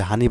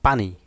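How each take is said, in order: First: Regional হানি with h for p; regional form. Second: Standard পানি with an opening p; standard form. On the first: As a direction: say হানি as "hani". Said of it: "হানি একটা আঞ্চলিক শব্দ". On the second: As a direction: say পানি as "pani". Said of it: "প্রমিত রূপটা কী হবে?". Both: Shown as a demonstration.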